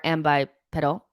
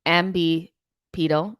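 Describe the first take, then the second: First: "ambipedal" with bye, then short-e pedal. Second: Slow "ambipedal", with bee then pee; "ambipedal" as am-bee-PEE-dal. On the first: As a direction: say "ambipedal" ending like bike pedal. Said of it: "or ambipedal". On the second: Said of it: "Ian said it's pronounced". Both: Shown as a demonstration.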